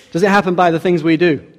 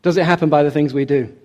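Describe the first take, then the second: First: "it" leaned on, falling at the end; pressed question. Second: Said in the usual way. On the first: Shown as a demonstration. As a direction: push "Does it happen" as a challenge. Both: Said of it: "repeated question".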